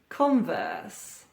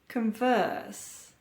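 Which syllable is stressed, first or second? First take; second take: first; second. First: The stress is on the first syllable. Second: The stress is on the second syllable. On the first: It is used as a noun or adjective. "stress on the first syllable" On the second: It is used as a verb. "Stress or emphasis on the second syllable"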